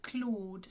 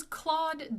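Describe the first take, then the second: First: Claude with a very closed o; French Claude, tight o; French pronunciation. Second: Claude with an open "aw"; English-style Claude; anglicized pronunciation. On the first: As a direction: say Claude as a pure rounded "klohd". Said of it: "it's a very closed O". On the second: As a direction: say Claude as "clawed". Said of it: "in French you would pronounce it". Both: Shown as a demonstration.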